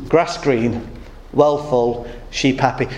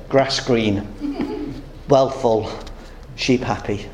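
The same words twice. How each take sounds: First: Said in the usual way. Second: A lightly voiced Indian, pitched lower and unhurried; the Indian's voice. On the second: Preacher voicing the Indian showing his gold, lightly lower. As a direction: give the Indian's calm answer, a touch lower. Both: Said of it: "The Indian then said".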